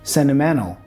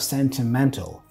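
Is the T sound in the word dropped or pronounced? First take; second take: dropped; pronounced. First: The T is dropped after the N. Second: The T is clearly pronounced after the N. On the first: "drop the T and pronounce the N before" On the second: "instead of"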